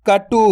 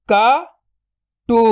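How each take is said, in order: First: Said in the usual way. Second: "कटु" split into क, then टु, very slow; drawn-out breakdown of "कटु"; syllable by syllable. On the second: Shown as a demonstration. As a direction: sound out क ... टु with a long gap. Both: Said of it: "तो मिलके बन जाएगा".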